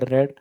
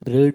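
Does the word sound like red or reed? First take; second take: red; reed. First: The vowel is short, as in red. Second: The vowel is long, as in reed. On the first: It is the past participle of the verb. "Spelling ସମାନ କିନ୍ତୁ ପ୍ରୋନାଉନ୍ସିଏସନ ରେଡ୍ ହବ" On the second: It is the base form of the verb. "ପଢିବାର English ହଉଛି ରିଡ୍"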